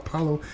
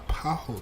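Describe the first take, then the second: First: The L sound is pronounced in the word. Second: The L sound is left out of the word. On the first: The speaker calls it wrong. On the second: The speaker calls it right.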